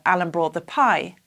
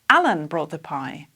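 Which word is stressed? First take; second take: pie; Alan. First: The main stress falls on the word pie. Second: The main stress falls on the word Alan. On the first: The speaker calls it wrong. "this would be strange" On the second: The speaker calls it right. "I would have to change the intonation"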